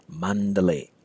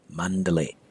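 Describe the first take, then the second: Both takes have the same delivery.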